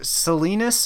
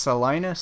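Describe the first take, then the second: First: It is pronounced like the California city name. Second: It is pronounced like the Kansas city name. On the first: The speaker calls it wrong. "he like pronounces it wrong" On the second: The speaker calls it right. "it's pronounced Salinas"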